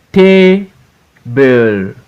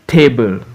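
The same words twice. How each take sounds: First: TA, pause, BLE; syllable by syllable. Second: Said in the usual way. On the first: Shown as a demonstration. Teacher reading for pupils to repeat, Table broken as TA-BLE. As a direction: Table split into two long, separate beats. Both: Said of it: "we are in two syllables word".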